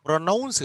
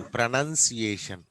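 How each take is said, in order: First: ప్రొనౌన్స్ with "noun" in the middle; wrong "noun" vowel. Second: ప్రొనౌన్సియేషన్ with "nun", not "noun"; corrected "nun" vowel. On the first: Teacher echoing a student's word to correct it, stressed "noun". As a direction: say ప్రొనౌన్స్ as pro-NOUNS, pitched up. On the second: Teacher giving students the corrected word, careful "nun" pronunciation. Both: Shown as a demonstration. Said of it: "ప్రొనౌన్స్ కాదు".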